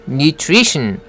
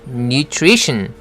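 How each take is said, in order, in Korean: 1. nutrition은 영어 소리로 발음합니다. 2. nutrition은 영어 소리로 발음합니다.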